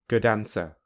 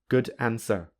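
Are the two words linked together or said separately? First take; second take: linked; separately. First: The two words run together smoothly. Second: The two words are said separately. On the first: "with linking" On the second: "without linking"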